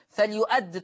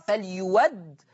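First: Said in the usual way. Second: فليود with w in place of the glottal stop; smooth open waw in فليود; hamza as waw. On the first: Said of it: "تقرأ". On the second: Shown as a demonstration. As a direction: say فليود as "falyuwaddi". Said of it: "فتبدل بواو مفتوحة".

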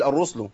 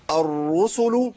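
First: "الرسل" said quickly as "الرُّسْل" with the sin silent; common mistake. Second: "الرسل" said slowly as "الرُّسُلُ" with the sin voiced; correct form. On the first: Teacher imitating what many people say: clipped wrong reading. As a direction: drop the middle vowel of "الرسل". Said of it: "أسكن السين". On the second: Teacher modelling the right reading: slow full vowels. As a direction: give every vowel in "الرسل". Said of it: "كتير ناس يقول الرسل". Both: Shown as a demonstration.

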